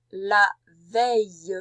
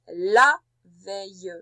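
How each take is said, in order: First: "la veille" slow and loud, each sound drawn out; slow dictation. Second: "la" of "la veille" held, slow and loud; stress on la. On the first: Teacher dictating "la veille" to a pupil, slow and loud. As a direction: stretch "la veille" slowly for writing. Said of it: "J'ai bien dit la veille". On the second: Teacher stressing "la" so the pupil hears feminine. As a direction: lean on "la" to mark the feminine. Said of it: "C'est donc féminin". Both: Shown as a demonstration.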